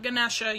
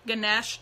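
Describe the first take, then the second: First: The name ends with an extra 'a' vowel. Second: The name ends on the 'sh' sound. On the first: The speaker calls it wrong. "not Ganesha" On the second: The speaker calls it right. "You don't pronounce the A"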